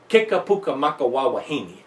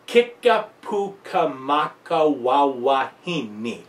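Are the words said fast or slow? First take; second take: fast; slow. First: The words are said quickly. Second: The words are said slowly and carefully. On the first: "start gradually speeding them up" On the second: "Take it slowly"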